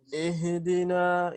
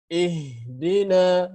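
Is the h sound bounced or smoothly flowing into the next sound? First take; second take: bounced; flowing. First: The h is given an abrupt bouncing release. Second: The h flows smoothly into the next sound. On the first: The speaker calls it wrong. "Ini salah satu kesalahan juga ya" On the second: The speaker calls it right. "Yang benar tanpa kolkolah. Suaranya mengalir ya"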